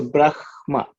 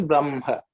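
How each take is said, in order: First: Brahma split as Brah-ma, h before m; correct Sanskrit pronunciation. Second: Brahma said as Bram-ha; common flipped pronunciation. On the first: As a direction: sound the h fully, then ma, in Brahma. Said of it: "is the correct pronunciation". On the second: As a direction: hum the m before the h in Brahma. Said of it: "many people pronounce it as". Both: Shown as a demonstration.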